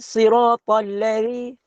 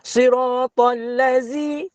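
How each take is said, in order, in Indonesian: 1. Konsonan dalam ladzi itu th bersuara. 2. Konsonan dalam ladzi itu z biasa. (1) "dia huruf zal. Zal, hujung lidah ya" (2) "siratal ladzi itu jadi huruf zai"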